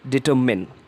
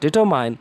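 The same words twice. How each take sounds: First: The last syllable sounds like min. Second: The last syllable rhymes with mine. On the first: The speaker calls it right. "It is determine. So the right way of pronunciation is determine" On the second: The speaker calls it wrong. "it is not determine"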